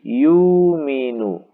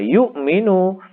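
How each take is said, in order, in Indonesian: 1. Huruf u panjang menggantikan hamzah. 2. Hamzah mengikuti suku kata pertama. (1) "hamzah di sini diganti dengan ... huruf wawu" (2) "hamzahnya ini menempati fa fiil"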